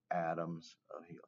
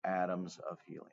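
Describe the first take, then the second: First: Whispered to yourself as you write. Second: Said in the usual way. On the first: Shown as a demonstration. Teacher whispers the label again while writing it for the class. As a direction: breathe the words, no voice. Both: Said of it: "I forgot to label".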